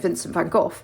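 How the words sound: The name is said the British way.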